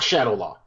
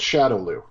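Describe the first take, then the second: First: The final syllable sounds like "law". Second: The final syllable sounds like "loo". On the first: The speaker calls it wrong. "It's not Shadow Law" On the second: The speaker calls it right. "it's called Shadow Lou"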